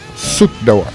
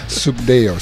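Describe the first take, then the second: First: The surname ends with a 'dor' sound. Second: The surname ends with a 'dale' sound. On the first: The speaker calls it wrong. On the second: The speaker calls it right. "Good, very good, right on"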